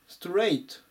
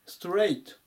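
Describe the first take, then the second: The two takes are said the same way.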